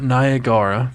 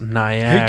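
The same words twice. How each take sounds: First: The second A is pronounced as its own vowel. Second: The second A is silent in the word. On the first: The speaker calls it wrong. "It's not Niagara" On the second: The speaker calls it right. "Why is the second A silent?"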